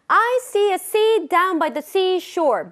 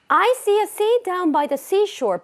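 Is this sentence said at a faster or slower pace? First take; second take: slower; faster. First: It is said at a slower, rhythmic pace. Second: It is said at a faster, quicker pace. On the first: "리듬 타서 한번 해보겠습니다" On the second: "스피드를 키워보면서 한번 해볼게요"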